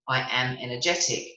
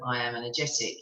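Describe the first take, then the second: First: It is said with lively, lifted energy. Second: It is said flatly, with little energy. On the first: The speaker convinces themselves it is true. The speaker calls it right. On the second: The speaker does not convince themselves. The speaker calls it wrong.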